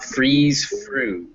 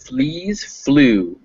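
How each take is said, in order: First: The first word lacks a clear L sound. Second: The first word has a clear L sound. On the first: The speaker calls it wrong. "so not" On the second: The speaker calls it right. "make sure on fleas and flew, it's a real L sound"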